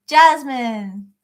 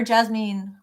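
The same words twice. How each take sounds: First: Jasmine as JAZ-min, short unstressed ending; first pronunciation. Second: Jasmine as jaz-MEEN, with a fuller second syllable; alternative pronunciation. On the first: Host reading a viewer's name, Jasmine said JAZ-mun. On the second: Host offering another reading of a viewer's name, Jasmine as jaz-MEEN. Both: Shown as a demonstration. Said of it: "however it's pronounced for you".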